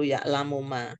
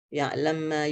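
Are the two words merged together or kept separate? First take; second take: separate; merged. First: The words are said in full and apart. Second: The words are shortened and run together. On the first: "Enggak perlu ya'lamu ma" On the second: "cara pengucapan huruf itu disingkat-singkat. Sehingga ada bacaan idgham"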